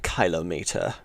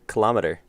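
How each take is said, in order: First: It is said the way Europeans say it. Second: It is said the usual American way. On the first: "Probably pronouncing it wrong compared to the, all the Europeans out there. Probably like a" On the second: "That's how we pronounce it"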